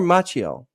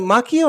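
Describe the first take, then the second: First: "Macchio" with a CH sound, as MATCH-ee-oh; "Macchio" anglicized to MATCH-ee-oh; soft CH pronunciation. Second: "Macchio" with a hard K, as MAH-kee-oh; "Macchio" pronounced the Italian way, MAH-kee-oh; hard K pronunciation. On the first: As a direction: say the cch in "Macchio" like the tch in match. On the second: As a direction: say the cch in "Macchio" as K. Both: Shown as a demonstration. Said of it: "Is it Macchio or Macchio?".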